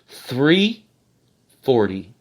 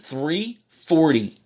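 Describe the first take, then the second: First: It is said slowly and deliberately. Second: It is said at a normal speaking pace.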